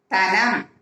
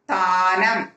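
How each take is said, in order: First: தனம் with a short first "a"; short vowel. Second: தானம் with the "aa" held long; long vowel. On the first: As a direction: keep the opening of தனம் brief. (தனம் குறிலாக, குறுக்கி) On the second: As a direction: stretch the first vowel of தானம். (தானம் நெடிலாக, நீட்டி) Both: Shown as a demonstration. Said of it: "துணைக்கால் போட்டு".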